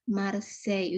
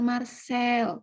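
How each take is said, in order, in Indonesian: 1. Kata ini berakhir dengan bunyi meluncur mirip Y. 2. Kata ini berakhir dengan bunyi L yang jelas. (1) "tapi Marseille" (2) "Jadi bukan Marcel"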